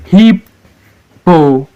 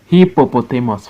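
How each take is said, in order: First: HIP, PO, PO, TA, MUS, slow and separate; syllable by syllable. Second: Said in the usual way. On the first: Shown as a demonstration. Teacher leading the reading, Hippopotamus broken as HIP-PO-PO-TA-MUS. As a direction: Hippopotamus in five beats with pauses, starting high. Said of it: "it's having five syllables". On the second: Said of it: "Five syllables".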